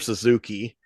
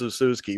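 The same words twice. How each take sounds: First: It is said like the motorcycle brand name. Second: It is said the way Japanese speakers say it. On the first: The speaker calls it wrong. "if you want to talk like the motorcycle or whatever" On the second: The speaker calls it right. "but they say it's Suzuki"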